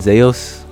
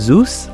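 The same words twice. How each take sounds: First: Zeus is said differently from the familiar way. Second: Zeus is said the familiar English way. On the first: "or maybe in proper pronunciation" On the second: "We've heard of"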